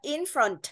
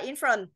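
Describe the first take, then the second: First: The final consonant sound is clearly released. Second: The final consonant sound is left off. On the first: The speaker calls it right. "mà mình đọc là in front. Đấy, bật âm đuôi của nó lên" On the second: The speaker calls it wrong. "mình không đọc là in front"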